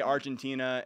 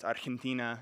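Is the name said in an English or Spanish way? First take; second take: English; Spanish. First: The name is said with an English pronunciation. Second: The name is said with a Spanish pronunciation. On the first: An ordinary English speaker says it. "you say Argentina" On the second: A returned missionary corrects it. "no, it's Argentina"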